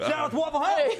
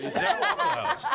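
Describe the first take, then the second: First: Loud happy shout out; excited shout. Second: High laughing repeat; laughing echo. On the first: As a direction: call it out with glee. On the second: Echoing the shout out. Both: Real, not acted.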